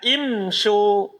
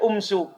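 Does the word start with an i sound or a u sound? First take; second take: i sound; u sound. First: The word begins with an i vowel. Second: The word begins with a u vowel. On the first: The speaker calls it right. "Alifnya tetap di kasroh, tetap dibaca apa?" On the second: The speaker calls it wrong. "Tidak boleh dibaca umsu"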